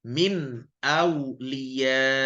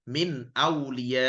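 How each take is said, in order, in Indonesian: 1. Vokalnya ditahan dulu, lalu ada hamzah yang ditekan. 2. Vokal terakhir tidak punya hamzah yang ditahan dan ditekan. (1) "ada tekanannya" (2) "Jadi bukan min awliya, tidak"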